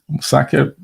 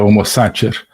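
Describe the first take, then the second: First: It uses the restored classical Latin pronunciation. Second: It uses the ecclesiastical church Latin pronunciation. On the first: "uso aqui a pronúncia restaurada do latim" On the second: "A pronúncia eh, eclesiástica seria Homo Sacer"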